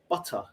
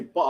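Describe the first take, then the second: First: The middle T sounds are clearly pronounced. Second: The middle T sounds are dropped. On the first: This is proper speech for work. "I'll say butter because I have to be proper" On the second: This is working-class slang. "I will never say butter"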